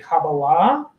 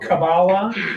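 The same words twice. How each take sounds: First: It is said with a modern Hebrew pronunciation. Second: It is said with an Ashkenazi pronunciation. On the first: "I pronounce it in the modern Hebrew way"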